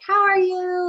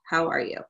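First: The voice is pitched high. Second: The voice is pitched low.

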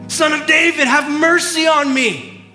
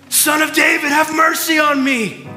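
No difference in how they are said.

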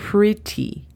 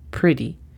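First: The T is a crisp British T. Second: The T sounds soft, almost like a D.

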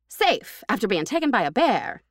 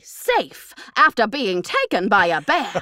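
First: It is read in a plain, flat way. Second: It is read in a dramatic, expressive way.

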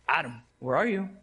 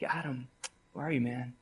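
First: The question sounds mocking and sarcastic. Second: The question sounds gentle and tender. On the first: The speaker is scornful toward Adam. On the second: The speaker cares about Adam and seeks him. "that tender voice of, like"

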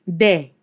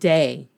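First: The vowel is a short pure e. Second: The vowel glides like English ay. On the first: The speaker calls it right. "de, not day" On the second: The speaker calls it wrong. "not day"

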